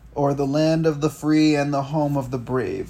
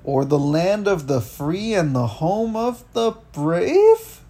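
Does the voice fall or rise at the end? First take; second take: falls; rises. First: The voice falls at the end. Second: The voice rises at the end.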